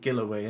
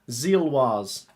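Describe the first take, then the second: First: The name ends with a 'way' sound. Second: The name ends with a 'wahz' sound. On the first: The speaker calls it wrong. "I think I heard someone else call them Gilloway" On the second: The speaker calls it right. "I will try and improve it"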